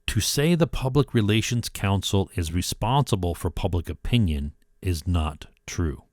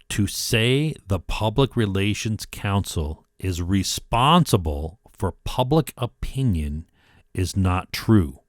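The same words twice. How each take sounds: First: It is read at a normal pace. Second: It is read slowly.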